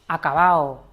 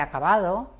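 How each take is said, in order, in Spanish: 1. La d entre las vocales finales se elimina. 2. La d entre las vocales finales se pronuncia.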